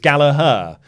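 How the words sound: The name is said with an American pronunciation. The speaker calls it wrong. "usually the American way of saying it, which is incorrect, is Gallagher"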